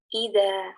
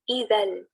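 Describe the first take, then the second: First: The word ends with a long vowel. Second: The word ends with an n sound. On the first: The reader stops after this word. "jika berhenti, maka hanya dibaca idza" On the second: The reading continues into the next word. "Jika dibaca dengan disambung, maka dibaca dengan hukum tanwin"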